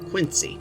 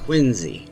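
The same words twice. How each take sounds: First: The name is said the Illinois way. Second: The name is said the Boston way. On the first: This is how people from Illinois say it. "I'm from Illinois. We pronounce that word Quincy" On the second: This is how people in Boston say it. "apparently in Boston, that's pronounced Quincy"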